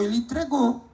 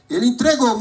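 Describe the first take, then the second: First: Said in the usual way. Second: Entregou said louder with a firm fall; stress on entregou. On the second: Shown as a demonstration. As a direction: lean on entregou and land it firmly. (ênfase em entregou, mais forte e descendo)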